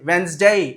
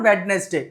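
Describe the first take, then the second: First: The middle d is silent, giving two syllables. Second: The middle d and all three syllables are sounded. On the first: The speaker calls it right. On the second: The speaker calls it wrong.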